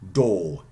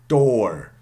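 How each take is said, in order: First: It is said without the final R sound. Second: It is said with the final R sound.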